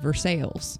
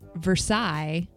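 First: The name is said the local way. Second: The name is said the standard way. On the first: "but here it's called Versailles" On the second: "it's Versailles"

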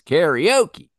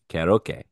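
First: The word is said with American English pronunciation. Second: The word is said with Japanese pronunciation. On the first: "it comes over to the States" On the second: "That is how you pronounce it over in Japan"

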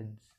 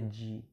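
First: The D sound is half swallowed. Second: The D sound is fully pronounced. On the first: The speaker calls it right. "você meio que vai engolir ele, você vai pronunciar só metade" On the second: The speaker calls it wrong. "Não é D"

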